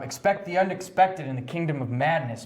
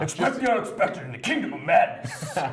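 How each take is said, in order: First: It is spoken in the speaker's ordinary voice. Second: It is spoken in a put-on imitation voice. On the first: "I'm not going to say it in his voice" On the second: "Can we hear it in his voice"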